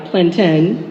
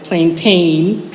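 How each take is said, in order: First: "plantain" said slowly the Nigerian way, stress on the last syllable; slow, careful Nigerian "plantain"; Nigerian pronunciation. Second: "plantain" in the American way, stress on the first syllable; plain American "plantain"; Americanized pronunciation. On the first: Telling the audience what she calls the fruit, Nigerian way. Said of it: "instead of the Americanized plantain". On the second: Setting her word against the American one, American way. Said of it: "the Americanized plantain". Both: Shown as a demonstration.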